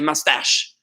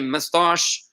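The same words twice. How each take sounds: First: It is said with an American accent. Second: It is said with a British accent. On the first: "We're going to say mustache" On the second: "We're not going to say mustache"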